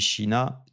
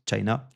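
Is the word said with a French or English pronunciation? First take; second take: French; English. First: It is pronounced the French way. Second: It is pronounced the English way.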